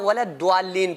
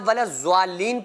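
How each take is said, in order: First: The consonant after wala sounds like a d. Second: The consonant after wala sounds like a z. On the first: "ना वला द्वालीन पढ़ना है" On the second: "ना वला ज़्वालीन पढ़ना है"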